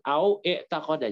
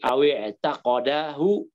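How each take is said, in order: First: A glottal stop separates 'au' from the verb. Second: 'Aw' links into the verb with a short i. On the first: The speaker calls it wrong. "jangan au i'taqada" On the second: The speaker calls it right. "kayak tadi awi i'taqadahu sunnatan"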